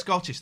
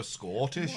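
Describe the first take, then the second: First: Said in the usual way. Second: "Scottish" in a put-on Scottish accent; mock Scottish voice. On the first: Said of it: "they don't say Scottish". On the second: Shown as a demonstration. Host mimicking how everyone says "Scottish", mock Scottish accent. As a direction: say "Scottish" as a caricatured Scot would. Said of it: "they go Scottish".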